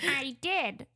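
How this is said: It is said in a put-on Conehead voice.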